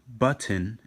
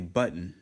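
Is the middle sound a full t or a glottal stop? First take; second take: full t; glottal stop. First: The middle t is fully pronounced. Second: The middle t becomes a glottal stop. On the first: "if we want to fully enunciate on the word and pronounce it correctly" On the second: "if you use the Hebrew letter Aleph, we would say button"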